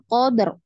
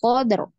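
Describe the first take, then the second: First: The final r is cut off abruptly. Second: The same.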